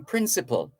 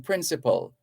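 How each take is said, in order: First: "principal" the way to avoid, last syllable not matching hospital; wrong "principal". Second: "principal" with last syllable as in hospital; closed-gap "principal". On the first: Host corrects listeners, mistaken "principal" for contrast. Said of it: "So you're not saying principal". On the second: Host corrects listeners, "principal" ending like hospital. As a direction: give "principal" a reduced, falling end. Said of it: "you're saying principal". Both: Shown as a demonstration.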